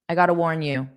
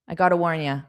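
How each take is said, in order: First: The last word is a full you. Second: The last word is reduced to ya. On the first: "So I usually pronounce it as you" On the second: "I'll say it with ya because it's very common"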